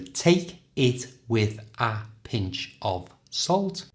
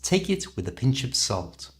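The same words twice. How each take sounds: First: Each word is said separately and carefully. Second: The words run together quickly and smoothly.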